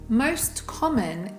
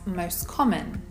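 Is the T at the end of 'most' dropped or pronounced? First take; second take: pronounced; dropped. First: The T at the end of 'most' is pronounced. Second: The T at the end of 'most' is dropped.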